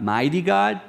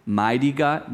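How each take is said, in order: First: "God" lifted much higher and ringing; stress on God. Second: Said in the usual way. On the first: Shown as a demonstration. Preacher proclaiming "mighty God" to the children, rising on "God". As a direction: lift "mighty God" up high, hitting "God". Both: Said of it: "Watch this".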